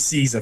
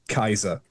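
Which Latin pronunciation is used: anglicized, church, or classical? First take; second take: anglicized; classical. First: It is said with an anglicized English pronunciation. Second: It is said with a classical Latin pronunciation. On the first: "which is an anglicization" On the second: "A classical Latinist would would say"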